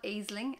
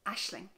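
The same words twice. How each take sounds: First: It is read the way the spelling suggests. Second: It is read in the Irish way, unlike spelling. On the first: The speaker calls it wrong. "It's not Aisling, as you might think" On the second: The speaker calls it right. "but Aisling"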